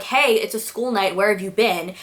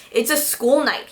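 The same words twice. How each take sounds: First: Said in the usual way. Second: "It's a school night" in a light mock sing-song. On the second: Boyfriend mocks his girlfriend's "It's a school night", lightly mocking. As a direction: echo "It's a school night" to tease her. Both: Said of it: "he mocks me".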